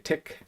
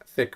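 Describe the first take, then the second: First: The word begins with a hard t sound. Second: The word begins with a soft th sound.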